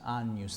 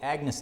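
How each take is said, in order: First: The gn sounds like ny, as in onion. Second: The g is hard, like in Agnes. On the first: This is the Roman pronunciation. "in Roman pronunciation, this G N is like onion" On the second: This is the Anglican pronunciation. "the Anglicans call it the Agnus Dei. Like, you know, I went to school with a girl named Agnes Day"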